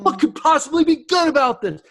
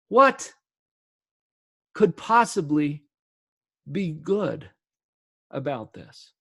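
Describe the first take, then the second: First: It is said as an exclamation. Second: It is said as a real question.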